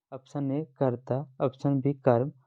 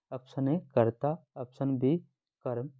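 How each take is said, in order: Both takes have the same delivery.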